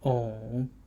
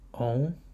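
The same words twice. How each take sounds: First: The pitch dips low and then rises. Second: The pitch rises from mid to high.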